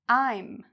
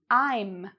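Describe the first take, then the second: First: It is shortened into one syllable. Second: The same.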